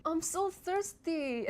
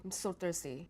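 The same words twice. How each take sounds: First: "I'm so thirsty" slow and much higher; high dramatic take. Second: "I'm so thirsty" low and flat, softer; flat low take. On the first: Showing viewers pitch changing the meaning of "I'm so thirsty". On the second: Showing viewers flat pitch on "I'm so thirsty". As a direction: mumble "I'm so thirsty" without interest. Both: Shown as a demonstration. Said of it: "you can hear the difference in the meaning".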